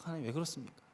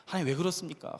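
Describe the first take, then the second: First: 하나님 왜 그렇습니까 said much softer, almost breathless; hushed plea. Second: Said in the usual way. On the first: Retold or imitated. Pastor recalling his prayer to God, in a hushed plea.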